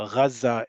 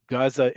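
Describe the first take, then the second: First: "Gaza" opening on a throaty gh; Arabic pronunciation. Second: "Gaza" as in Hebrew, with no throaty opening sound; Hebrew pronunciation. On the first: Teacher comparing languages, Arabic throaty gh in "Gaza". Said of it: "or Gaza in Arabic". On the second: Teacher comparing languages, Hebrew pronunciation of "Gaza" as AH-za. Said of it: "Gaza in Hebrew or Gaza in Arabic". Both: Shown as a demonstration.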